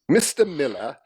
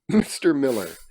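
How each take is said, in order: First: It is read in a put-on English accent. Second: It is read in the speaker's ordinary accent.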